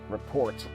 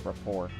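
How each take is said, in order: First: The word ends with a sounded t. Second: The word ends with a silent t. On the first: "I don't even want to pronounce it as" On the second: "I want to say report"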